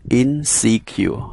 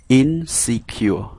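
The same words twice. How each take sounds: The two takes are said the same way.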